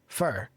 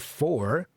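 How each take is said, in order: First: The word is reduced to a weak fur. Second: The word has a full, clear vowel. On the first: "it's usually fur" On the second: "The word for is rarely for"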